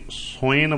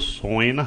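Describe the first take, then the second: First: The first vowel is a short 'u' sound. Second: The first vowel is a long 'o' sound. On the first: The meter needs one beat fewer here. "ਇੱਥੇ ਸੋਇਨ ਬੋਲਣਾ ਹੈ, ਇੱਕ ਮਾਤਰਾ ਘਟਾ ਕੇ ਬੋਲਣਾ ਹੈ" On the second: This is the word's base form. "ਸੱਸੇ ਦਾ ਹੋੜਾ ਦੱਸ ਰਿਹਾ ਹੈ ਕਿ ਅਸਲੀ ਲਫ਼ਜ਼"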